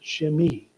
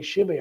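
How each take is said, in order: First: The name is said with a Hebrew pronunciation. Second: The name is said with an anglicized pronunciation. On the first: The speaker calls it right. "that's the Hebrew pronouncement" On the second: The speaker calls it wrong. "I used to say Shimei"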